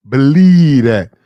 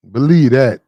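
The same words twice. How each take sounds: First: Slow, louder "Believe that", leaning on each word; firm, drawn-out insistence; emphatic repeat. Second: Said in the usual way. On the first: Real, not acted. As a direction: drive it home the second time. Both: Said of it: "repeats phrase with emphasis".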